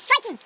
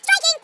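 First: Said in the usual way. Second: Raised warning cry of STRIKING; shouted STRIKING. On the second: Shown as a demonstration. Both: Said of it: "You need to shout striking".

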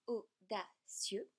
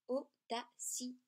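First: Audacieux with -cieux in one syllable, au-da-cieux; three syllables. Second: Audacieux split as au-da-ci-eux, slowly; diaeresis, four syllables. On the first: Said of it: "trois syllabes". (audacieux en trois syllabes, au-da-cieux) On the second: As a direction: stretch audacieux into four beats. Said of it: "quatre syllabes". (audacieux en quatre syllabes, au-da-ci-eux) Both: Shown as a demonstration.

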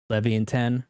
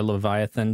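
First: Leviathan said as leh-vee-ah-TEN; alternative pronunciation. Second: Leviathan said as luh-VYE-uh-thun; English pronunciation. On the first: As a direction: pronounce Leviathan with leh-vee at the start and a hard T. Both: Shown as a demonstration. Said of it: "how you pronounce it".

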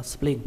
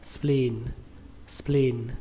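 First: "spleen" cut short, like "splin"; short vowel. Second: "spleen" with a long drawn-out "ee"; long vowel. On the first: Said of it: "Các bạn không được đọc ngắn". (đọc "spleen" với âm i ngắn) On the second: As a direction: hold the vowel in "spleen" before the N. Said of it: "Các bạn phải kéo nó ra". (kéo dài âm i trong "spleen") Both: Shown as a demonstration.

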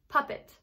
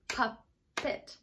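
First: Said in the usual way. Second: "Puppet" split softly as pup, pause, pet; "Puppet" soft, syllable by syllable; clapped-out syllables. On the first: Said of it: "And one more". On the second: Shown as a demonstration. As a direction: break "Puppet" into two beats. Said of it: "we're gonna clap them out".

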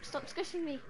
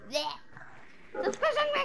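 First: Said in the usual way. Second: Slow, high whining plea; high drawn-out whine. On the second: Real, not acted. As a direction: stretch it out high and whiny.

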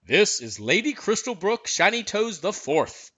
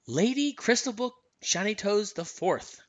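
First: Higher-pitched groom making a formal introduction; put-on stable official's voice, pitched up; head groom. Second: Lightly voiced heroine repeating a title; higher voice, pausing midway through the name; Anna. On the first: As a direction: announce the horse's name as a royal groom. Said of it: "the head groom said". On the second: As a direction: echo the grand name, pitched a little higher. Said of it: "said Anna". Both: A narrator's reading.

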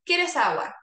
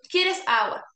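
First: Said in the usual way. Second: Louder repeat. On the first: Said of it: "Voy a inventar algo". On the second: Shown as a demonstration. Therapist repeating "¿Quieres agua?" louder to a patient.

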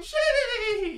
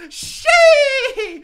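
First: Soft mock gritty. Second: High, loud gritty scream through a laugh; a hammed-up gritty shriek; gritty stage scream. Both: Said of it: "Yes, I did gritty on the stage".

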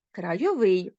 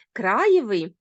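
First: Крайовий with final -ВИЙ stressed; stress on the ending. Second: Краєвий with КРА stressed; stress on the root. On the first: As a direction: land on the last syllable of крайовий. (наголос на закінченні: крайоВИЙ) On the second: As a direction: punch the first syllable of краєвий. (наголос на корені: КРАєвий) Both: Shown as a demonstration. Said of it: "розрізняємо слова залежно від наголосу".

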